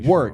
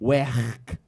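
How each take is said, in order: First: It is said in a standard accent. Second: It is said in a Liverpool accent.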